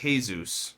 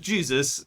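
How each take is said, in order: First: The name has a Spanish pronunciation, like 'hay-soos'. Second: The name has an English pronunciation, starting with 'j'. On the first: The speaker calls it wrong. "not Jesus or Jose for short" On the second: The speaker calls it right. "So this was Jesus"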